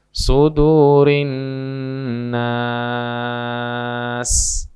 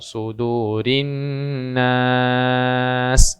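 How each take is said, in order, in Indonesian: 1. Vokal dalam nas ditahan sangat panjang. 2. Vokal dalam nas ditahan agak panjang. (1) "atau enam" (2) "boleh dibaca empat"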